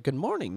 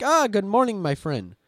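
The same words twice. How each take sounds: First: Said in the usual way. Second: Imitating a chatty AI, "ah" high and loud, then settling; hearty mock greeting from a chatbot; AI character greeting. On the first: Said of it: "I'm like". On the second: AI character greets its user with the banned phrase, mock hearty. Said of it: "He's like".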